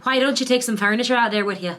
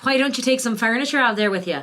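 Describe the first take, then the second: First: A light Western Irish accent on a practice question. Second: The question again in Western Irish, a little more confident; Western Irish accent. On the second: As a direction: repeat the question, keeping the Western Irish lilt. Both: Shown as a demonstration. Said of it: "that's my Western Irish".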